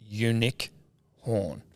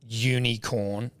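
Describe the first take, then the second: First: The last syllable starts with an h sound. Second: The last syllable starts with a k sound. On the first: "is the pronunciation unic horn" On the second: "not unicorn?"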